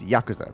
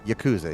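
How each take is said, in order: First: The stress is on the first syllable. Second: The stress is not on the first syllable. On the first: "the emphasis is on the first syllable" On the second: "A lot of people pronounce it Yakuza"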